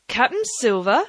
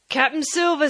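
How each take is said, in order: First: Rising, mocking query of the name; scornful question. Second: High announcing of the name; shouting the name. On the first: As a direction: throw the title back at him with a rise. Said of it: "cried the captain". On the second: Acted. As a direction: announce the name across the yard. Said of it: "he shouted".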